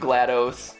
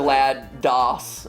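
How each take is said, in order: First: The last part is not said like computer 'DOS'. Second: The last part is said like computer 'DOS'. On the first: "I like GLaDOS better" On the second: "DOS as in M S DOS?"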